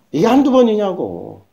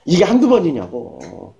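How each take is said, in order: First: 한두 stressed with a rising end; emphatic repeat. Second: Said in the usual way. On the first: Shown as a demonstration. Preacher repeating to congregation, stress on 한두. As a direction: lean on 한두 and lift the end.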